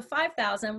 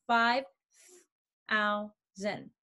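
First: Said in the usual way. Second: "five thousand" split into five, thou, sand; long pauses between syllables of "five thousand"; syllables emphasized. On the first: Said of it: "we're going to do". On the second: Shown as a demonstration. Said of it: "now emphasize the syllables".

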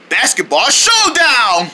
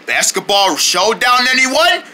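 First: Slow, stretched "Basketball showdown" falling at the end; announced exclamation. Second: Slow "Basketball showdown" lifting into a question; questioning invitation. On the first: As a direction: proclaim "Basketball showdown" with a final fall. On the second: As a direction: pose "Basketball showdown" with rising pitch, as an offer. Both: Acted. Invitation, then announced title.

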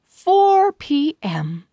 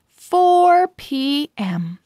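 No difference in how they are said.

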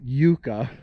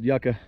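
First: "yucca" said YOO-kuh, long oo; eastern pronunciation. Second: "yucca" said YUCK-uh, short u; western pronunciation. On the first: Gardener quotes how back east says it, "yucca" as YOO-kuh. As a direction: say "yucca" with a first syllable like "you". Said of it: "back east, they like to call it". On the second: Gardener gives the local western name, "yucca" as YUCK-uh. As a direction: say "yucca" with a first syllable like "yuck". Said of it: "Out here in the West, they just call it". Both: Shown as a demonstration.

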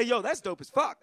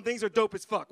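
First: "Yo, that's dope as fuck" in casual American street slang; easy American street slang. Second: Said in the usual way. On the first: Shown as a demonstration. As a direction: toss off "dope as fuck" like back home. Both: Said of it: "we say".

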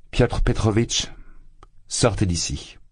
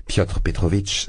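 First: Ordering him out, pale with contained fury; cold anger. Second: Said in the usual way. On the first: A narrator's reading. Dounia orders her suitor out, in cold contained anger. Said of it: "pâle de colère". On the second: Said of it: "Piotr Petrovitch, sembla-t-il".

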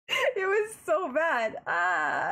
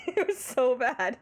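First: Higher and slow, dragged-out despair; mock-anguished groan. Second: Said in the usual way. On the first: Streamer to chat, reliving the cringe, dragged-out mock anguish. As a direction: stretch it like a wounded wail. Repeats the line, now drawn out.

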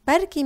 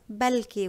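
First: بركي with a tapped r in the middle; r variant of maybe. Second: بلكي with a clear l in place of the r; l variant of maybe. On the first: Teacher shows the common Lebanese maybe with an r. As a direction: say بركي with a clear rolled r. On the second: Teacher shows the accent variant of maybe with an l. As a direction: say بلكي, swapping the r for an l. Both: Shown as a demonstration. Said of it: "Some people pronounce it as بلكي with a L".

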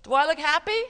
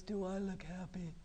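First: Loud, higher, cheerful question; upright, happy. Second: Soft, low, glum question; slumped, unhappy. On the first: Teacher shows children a good posture, loud and happy. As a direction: ask it brightly with a rising end. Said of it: "what if I sit like this". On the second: Teacher shows children a slumped posture, soft and glum. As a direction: ask it deflated, as if slouching. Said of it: "if I'm sitting like this". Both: Shown as a demonstration.

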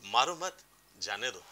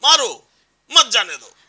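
First: मारो मत joined, gap, then softer, lower जाने दो; pause after मत. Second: Loud, high मारो, gap, then forceful मत जाने दो; pause after मारो. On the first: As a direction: keep मारो मत together, pause, let जाने दो drop. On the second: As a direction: fire off मारो, stop, then hit मत hard. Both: Shown as a demonstration. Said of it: "वो जो एक gap आया".

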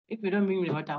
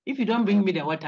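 First: Said in the usual way. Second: A mock threat to a student; threatening demand. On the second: Shown as a demonstration. Lecturer demos a threat, firm and raised. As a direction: stress on you, voice raised.

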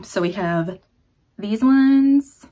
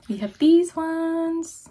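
First: Said in the usual way. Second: High, slow, stretched singsong; drawn-out singsong. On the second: Pretend. Showing stickers to viewers, slow high singsong. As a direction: sing the line out playfully.

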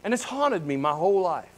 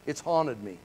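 First: Said in the usual way. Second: Quiet repeat. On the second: Real, not acted. Pastor echoing his regret to the church, hushed. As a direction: drop much softer and lower on the echo.

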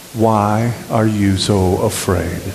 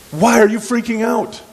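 First: Slow, deliberate question; measured recitation. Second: Very high, exasperated question; incredulous paraphrase. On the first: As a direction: lead the congregation through it word by word. Recites key question with congregation. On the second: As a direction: ask it in high-pitched mock disbelief. Casual paraphrase of Jesus's question. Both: Acted.

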